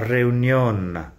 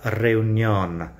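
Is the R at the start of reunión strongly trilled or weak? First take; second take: weak; strongly trilled. First: The initial R is weak, not strongly trilled. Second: The initial R is a strong rolled trill. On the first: The speaker calls it wrong. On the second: The speaker calls it right.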